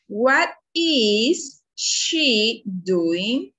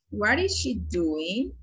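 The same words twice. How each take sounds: First: Very slow, drawn-out classroom question; word by word, drawn long with clear gaps; slow modelled question. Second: Moderately slow, connected classroom question; careful but flowing repeat; question repeated more fluently. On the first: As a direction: stretch out each word for learners. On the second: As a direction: run the words together, still measured. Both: Shown as a demonstration.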